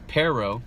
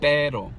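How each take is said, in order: First: Both the P and the R sound English. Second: The R is flapped and the P is unaspirated. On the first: "listen to the English pronunciation first" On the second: "if you tighten your lips"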